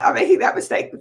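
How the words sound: It sounds excited and delighted.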